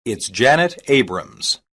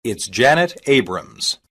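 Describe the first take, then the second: No difference in how they are said.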